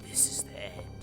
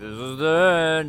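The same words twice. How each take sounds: First: It is said in a miserable, sad way. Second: It is said casually, without sadness.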